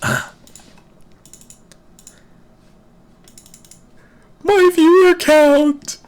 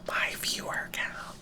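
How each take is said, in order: First: It is said loudly, at full voice. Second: It is said in a quiet whisper.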